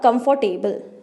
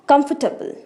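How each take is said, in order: First: The word is said with an r sound. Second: The word is said with no r sound. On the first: The speaker calls it wrong. "नॉट" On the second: The speaker calls it right. "र की sound नहीं produce करनी है"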